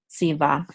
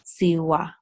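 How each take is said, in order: First: The middle consonant is a V sound. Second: The middle consonant is a W sound. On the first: This is the common modern pronunciation. "the more common way" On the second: This is the ancient pronunciation. "anciently, this the vav is pronounced like a W"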